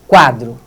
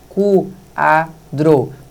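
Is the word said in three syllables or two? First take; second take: two; three. First: The word is said smoothly in two syllables. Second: The word is split into three separate syllables. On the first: The speaker calls it right. "o queixo desce uma vez só" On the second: The speaker calls it wrong. "Mexi três vezes"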